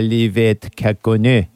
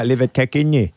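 First: The words are said separately and clearly. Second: The words are run together smoothly.

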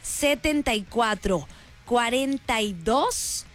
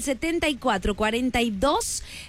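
First: It is said slowly and carefully. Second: It is said at a normal, quicker pace.

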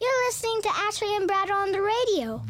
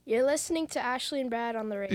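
First: It is said in a small, childlike voice. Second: It is said in his natural, deeper voice.

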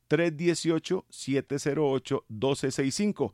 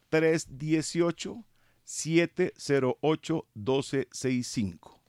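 First: It is said at normal speed. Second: It is said slowly.

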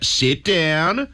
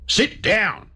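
First: It is said in a soft, coaxing way. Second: It is said as a firm command.

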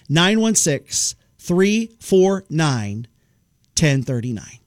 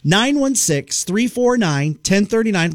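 First: The number is said slowly and clearly. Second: The number is said at normal speed.

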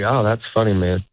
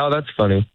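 First: It is said slowly and warmly. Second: It is said a little quicker.

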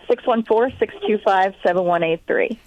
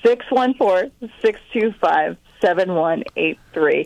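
First: The number is said quickly. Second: The number is said slowly.

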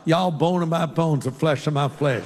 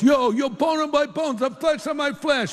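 First: It is said in a Southern accent. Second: It is said in an East Coast accent.

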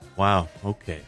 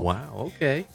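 First: It is said in a disappointed tone. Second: It is said in a flirty tone.

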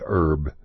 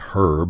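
First: It is said the Texan way, without the h. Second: It is said the British way, with the h.

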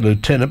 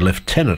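First: It is said with an American pronunciation. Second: It is said with an Australian pronunciation.

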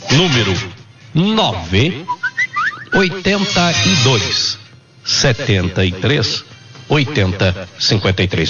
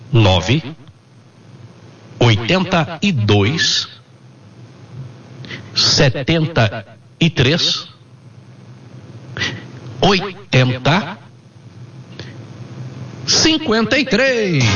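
First: The number is said at normal speed. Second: The number is said slowly.

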